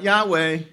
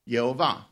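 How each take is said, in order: First: The name is said as Yah-weh. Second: The name is said as Ye-ho-vah. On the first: The speaker calls it wrong. "It's not Yahweh" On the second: The speaker calls it right. "How do you pronounce God's name? Yehovah"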